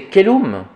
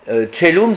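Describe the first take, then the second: First: The word begins with a hard k sound. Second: The word begins with a soft ch sound.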